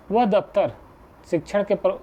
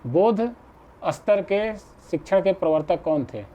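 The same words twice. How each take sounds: First: "वह दफ्तर" read as printed, breaking off mid-word; misprint read aloud. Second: "बोध" set apart, then "स्तर" read out slowly; corrected reading. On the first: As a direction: stumble over a misprinted "वह दफ्तर" and stop short. (छपाई की गलती से "वह दफ्तर" पढ़कर अटकना) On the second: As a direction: carefully correct it to "बोध स्तर", slow and deliberate. ("बोध" पर रुककर धीरे-धीरे सही पढ़ना) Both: Real, not acted. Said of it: "गलत थोड़ा सा मिसप्रिंट हो गया है".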